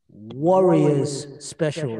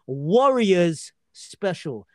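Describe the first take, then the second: First: The voice has an echo effect added. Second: The voice has no echo effect added.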